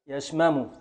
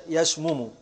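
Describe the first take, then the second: First: يشمم said "yashmamu"; a on middle m. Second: يشمم said "yashmumu"; u on middle m. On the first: Teacher deriving the present from shamima, يشمم as yash-ma-mu. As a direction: put a short a after the first m in يشمم. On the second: Teacher deriving the present from qatala, يشمم as yash-mu-mu. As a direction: put a short u after the first m in يشمم. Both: Shown as a demonstration. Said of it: "يبقى مضارعه".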